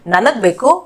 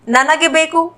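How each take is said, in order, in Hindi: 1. पहले शब्द का अंतिम स्वर लोप हो जाता है। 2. पहला शब्द एक स्पष्ट 'e' स्वर पर खत्म होता है।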